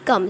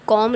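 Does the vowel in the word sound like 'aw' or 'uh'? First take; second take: uh; aw. First: The vowel is a short open 'uh' sound. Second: The vowel is a rounded 'aw' sound. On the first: The speaker calls it right. "क्या पढ़ेंगे, कम" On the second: The speaker calls it wrong. "कॉम read नहीं करेंगे"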